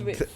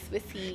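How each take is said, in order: First: The name ends without any added vowel. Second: The name ends with an added ee vowel. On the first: The speaker calls it right. "it's Swiss Wellness" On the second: The speaker calls it wrong. "a lot of people actually get confused. They call it Swissy"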